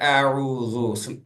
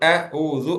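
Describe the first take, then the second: First: The word is said smoothly without any break. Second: The word is split with a break after 'a'. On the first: The speaker calls it right. "அதை ஃப்ளோவா தான் சொல்லணும்" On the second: The speaker calls it wrong. "ஓதும் போது அ ஊது அப்படின்னு சொல்லக்கூடாது"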